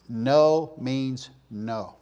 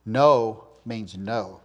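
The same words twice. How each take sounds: First: Slow, even "No means no"; firm slow no. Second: Slow, deliberate "No means no"; firm slow no. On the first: Preacher repeating the parents' rule, slow and firm. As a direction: say it like a settled rule. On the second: Preacher showing parents how to say no, slow and firm. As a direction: lay down the rule, each word weighted. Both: Shown as a demonstration. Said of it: "parents setting a standard".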